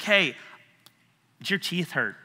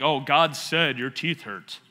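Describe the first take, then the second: First: Modest, conversational check-in; casual asking. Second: Slow, hammed-up holy pronouncement; mock prophet. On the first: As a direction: ask it simply, like checking in with someone. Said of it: "I will ask a question like". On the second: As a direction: intone it like a self-important faith healer. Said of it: "You don't have to be like". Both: Shown as a demonstration.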